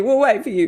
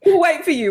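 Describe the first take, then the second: First: Laughing repeat. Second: High, loud promise. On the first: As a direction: say it again through a laugh. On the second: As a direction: call out to the listeners. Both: Acted.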